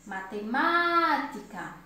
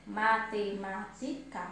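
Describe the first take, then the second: First: MATEMÁTICA with a long, drawn-out MÁ; slow, swelling stress on the MÁ of MATEMÁTICA; stressed syllable. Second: MA-TE-MÁ-TI-CA in separate, even beats; measured syllable count on MATEMÁTICA. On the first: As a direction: call out MATEMÁTICA, holding the stressed MÁ. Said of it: "ma é a sílaba mais forte". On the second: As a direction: slowly break MATEMÁTICA into its syllables. Teacher sounds out the syllables. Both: Shown as a demonstration.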